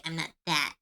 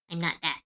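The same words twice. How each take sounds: The two takes are said the same way.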